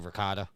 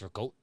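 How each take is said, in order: First: It is said with an American pronunciation. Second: It is said with an Italian pronunciation. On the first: The speaker calls it wrong. "as an Italian, it's killing me to say ricotta" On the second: The speaker calls it right. "It's ricotta"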